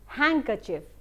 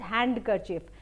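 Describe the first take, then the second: First: The d sound is left out. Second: The d sound is pronounced. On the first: The speaker calls it right. "it is handkerchief" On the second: The speaker calls it wrong. "we do not pronounce the word as handkerchief"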